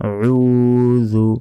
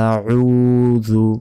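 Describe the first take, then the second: The two takes are said the same way.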